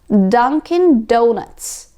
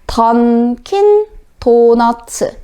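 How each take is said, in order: First: The D is made further back on the ridge. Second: The D is made against the back of the teeth. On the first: "혀가 뒤로 빠짐으로써 소리가 더 막아집니다" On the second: "우리말로 발음을 할 때 ... 앞니 뒤쪽에 이렇게 바로 붙죠"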